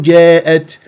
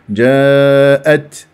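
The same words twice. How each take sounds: First: The long vowel is tilted toward ee. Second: The long vowel is a plain open aa. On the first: The speaker calls it wrong. "مو جاءت الساعة، لا لا تمل الألف" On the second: The speaker calls it right. "لا لا تمل الألف"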